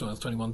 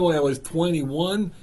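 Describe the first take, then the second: First: The phrase is spoken fast. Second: The phrase is spoken slowly. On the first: The speaker calls it wrong. "Slow down, slow down" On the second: The speaker calls it right. "I will talk in a voice that you will get and understand"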